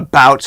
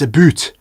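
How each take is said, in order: First: It is said with an American accent. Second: It is said with a Canadian accent.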